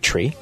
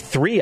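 First: The word begins with a hard 't' sound. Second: The word begins with a soft 'th' sound. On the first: The speaker calls it wrong. "I don't say tree" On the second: The speaker calls it right. "I say three"

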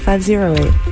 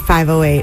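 First: The middle digit is said as zero. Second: The middle digit is said as oh. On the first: "I say zero" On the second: "I never say 508"

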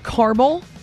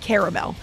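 First: The middle vowel is dropped, giving two syllables. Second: The middle vowel is sounded, giving three syllables. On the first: Someone else says it this way. The speaker calls it wrong. "she says caramel. Mom, there's another A in there" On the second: This is how the speaker says it. The speaker calls it right. "I say caramel. That's how I pronounce it"

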